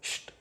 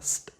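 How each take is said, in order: First: It begins with an sh sound. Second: It begins with a plain s sound. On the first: The speaker calls it right. "with the sh in the beginning" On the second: The speaker calls it wrong. "not st"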